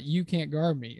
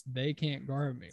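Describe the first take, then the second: First: YOU punched as the rejected word; stress on YOU. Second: THEY marked as the corrected word; stress on THEY. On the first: Podcaster voices player correcting himself, stress on "you". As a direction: lean on "you" to mark it as the wrong target. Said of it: "not you can't guard me". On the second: Podcaster voices player insisting it's teammates he addresses, stress on "they". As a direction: lean on "they" to insist on who is meant. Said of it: "It's they can't guard me". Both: Retold or imitated.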